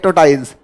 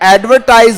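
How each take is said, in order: First: The word is clipped, with sounds dropped and changed. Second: The word is said in full, with every syllable. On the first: This is the local dialect's version of the word. The speaker calls it wrong. "Marwari में हमारे बोला जाता है उसको" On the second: This is the original English word. The speaker calls it right. "शब्द क्या होता है? ... एडवर्टाइज होता है वो"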